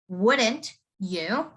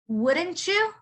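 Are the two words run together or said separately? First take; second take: separately; run together. First: The t and y are kept apart clearly. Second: The t and y blend together smoothly. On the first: "Usually you would say this as wouldn't you?" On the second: "in a colloquial way in a normal conversation"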